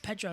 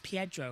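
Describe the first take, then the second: First: The first syllable is a plain 'peh' sound. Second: The first syllable is a gliding 'pee-eh' sound. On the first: The speaker calls it wrong. "It's not Pedro Acosta" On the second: The speaker calls it right. "it's Pietro Acosta. That's how you say it"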